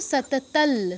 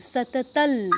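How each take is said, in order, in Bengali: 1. শব্দটি 'l' ধ্বনি দিয়ে শেষ হয়। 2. শব্দটি 'l' ধ্বনি দিয়ে শেষ হয়।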